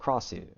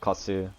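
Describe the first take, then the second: First: The name has an R sound after K. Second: The name has no R sound after K. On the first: This is how most other players say it. "everybody else I've been singing has been saying Krasu" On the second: This copies how native speakers say it. "didn't pronounce the R"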